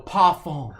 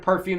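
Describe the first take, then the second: First: It is said with a put-on French pronunciation. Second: It is said with plain English pronunciation. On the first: "they go parfum" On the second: "Instead of perfume"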